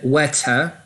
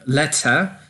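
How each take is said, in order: First: The first L sounds like a w sound. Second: The first L is a clear L sound. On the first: The speaker calls it wrong. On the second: The speaker calls it right.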